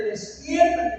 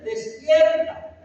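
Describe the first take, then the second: First: Said in the usual way. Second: "Despierta" stretched slowly, each syllable leaned on, slightly raised; preacher drags out "Despierta" as a wake-up call; drawn-out emphatic command. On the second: Shown as a demonstration. Pastor urging the church to wake: slow emphatic "Despierta".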